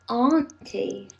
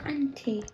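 First: It is said in a Southern English accent. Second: It is said in the speaker's usual accent.

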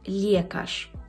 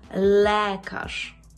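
First: The vowel after l sounds like ye. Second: The vowel after l stays a clear e. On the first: The speaker calls it wrong. "мої студенти кажуть «лєкаш». Це неправильно" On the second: The speaker calls it right. "Але «е» повинно зберегтися «е». І ми маємо «лекаш»"

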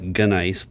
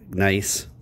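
First: A G sound is heard at the start. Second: No G sound is heard at the start. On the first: The speaker calls it wrong. "It looks like gunice" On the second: The speaker calls it right. "but it's nice"

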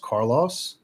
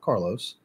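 First: The last syllable rhymes with 'Ross'. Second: The last syllable does not rhyme with 'Ross'. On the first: The speaker calls it right. "My last name rhymes with my first name" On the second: The speaker calls it wrong. "not Carlos"

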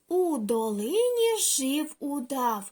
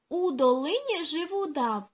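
First: The line is read at a slow pace. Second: The line is read at a fast pace. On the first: "Перший раз разом читаємо повільно" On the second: "Тепер пробуємо швидко читати"

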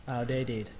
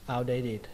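Both takes have the same delivery.

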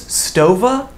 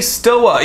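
First: The name is said with a v sound. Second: The name is said without a v sound. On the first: "excuse me, it's Stova?" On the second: "I'm gonna say Stoa"

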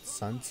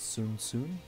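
First: The vowel rhymes with 'fun'. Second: The vowel rhymes with 'moon'. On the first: The speaker calls it wrong. "so it's not Sun" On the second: The speaker calls it right. "it's Sun? ... you pronounce it like soon"

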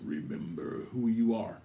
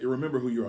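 First: It is said in a deep Mufasa voice. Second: It is said in his normal voice.

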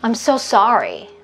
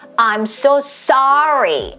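First: It is said relaxed, carried easily on the breath. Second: It is said with exaggerated, overdone mouth movement.

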